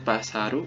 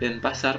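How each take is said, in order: First: Said with Japanese sounds, adding a final vowel. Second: Said with plain Indonesian sounds, ending in a consonant. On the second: "Kalau di Indonesia sendiri"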